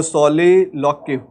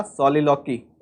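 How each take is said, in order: First: Slow, careful सोलिलोक्यू ending on kyoo; self-correction. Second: सोलिलोकी said as so-li-lo-ki, ending on a plain ki; first misreading. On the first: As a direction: correct it slowly, stressing the final kyoo in सोलिलोक्यू. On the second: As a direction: read सोलिलोकी quickly as so-li-lo-ki, not yet corrected. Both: Shown as a demonstration. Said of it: "ओ, सोलिलोक्यू".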